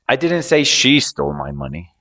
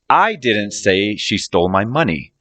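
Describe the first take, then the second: First: The word "she" is stressed. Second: The word "I" is stressed. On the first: Someone other than her took it. "I was talking about someone else, not her" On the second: Someone else said it, not the speaker. "I'm saying someone else said it, not me"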